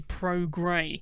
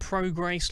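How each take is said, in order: First: The second syllable sounds like grey, no s. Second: The second syllable sounds like grace, ending in s. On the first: The speaker calls it right. "It's actually Pro Grey" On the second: The speaker calls it wrong. "I was calling him Pro Grace last week"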